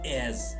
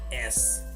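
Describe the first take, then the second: First: The word ends with a buzzing z sound. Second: The word ends with a hissing s sound. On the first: The speaker calls it right. "it's as, It's more like z" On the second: The speaker calls it wrong. "not s"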